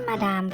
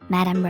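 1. พูดด้วยเสียงและวรรณยุกต์แบบไทยค่ะ 2. พูดด้วยเสียงและการเน้นเสียงแบบอังกฤษค่ะ (1) "ออกเสียงผิดค่ะ, ไม่ใช่มาดามค่ะ" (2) "แต่เป็น"

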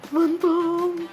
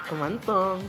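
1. Takot ang tono ng pagkasabi ng salita. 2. Malandi ang tono ng pagkasabi ng salita. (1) "natatakot ka naman" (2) "naglalandik ka"

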